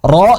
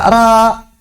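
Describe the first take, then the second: First: The letter is thick, with a dark vowel. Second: The letter is thin, with a light vowel. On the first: The speaker calls it right. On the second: The speaker calls it wrong. "menipiskan huruf yang tebal"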